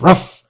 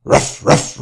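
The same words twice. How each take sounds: First: "ruff" yapped much higher and louder; a sharp, high, loud "ruff" like a small dog; dog bark. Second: Half-whispered "Ruff, ruff" puppy barks; dog bark. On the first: Reading to children, the running dog barks high and loud. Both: Acted. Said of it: "barks the dog".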